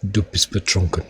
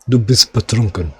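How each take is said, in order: First: It is spoken in a deep, soft German accent. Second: It is spoken with a Russian-sounding accent. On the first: The speaker calls it right. "It was deep, but really soft. ... I nailed it then" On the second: The speaker calls it wrong. "that sounds a bit Russian"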